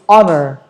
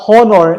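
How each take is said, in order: First: The H sound at the start is silent. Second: The H sound at the start is pronounced. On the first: The speaker calls it right. "silent H" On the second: The speaker calls it wrong. "It's not honor"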